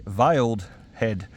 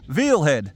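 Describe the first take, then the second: First: "veiled head" said slowly with the d of veiled clear; slow, careful "veiled", with the diphthong and final d; corrected pronunciation. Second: "veal head" said as vil hed, like the meat; "veal" with a long ee sound; his own way. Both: Shown as a demonstration. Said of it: "Or should I say".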